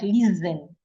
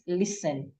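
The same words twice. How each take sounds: First: The middle consonant sounds like Z. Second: The middle consonant sounds like S. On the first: The speaker calls it wrong. "The S here does not sound like Z" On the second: The speaker calls it right. "It sounds like S"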